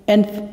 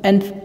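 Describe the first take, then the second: The two takes are said the same way.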